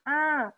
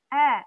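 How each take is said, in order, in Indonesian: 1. Suaranya keluar lewat hidung. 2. Suaranya keluar lewat mulut. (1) "kita keluarkan lewat hidung, suaranya akan beda" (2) "Mesti dikeluarkan lewat jauf"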